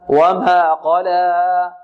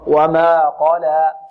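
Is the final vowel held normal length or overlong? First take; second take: overlong; normal length. First: The final vowel is drawn out too long. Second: The final vowel is held for two counts. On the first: The speaker calls it wrong. "ولا نمدها أكثر من حركتين. البعض يقول" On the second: The speaker calls it right. "لا، خطأ، وما قلى"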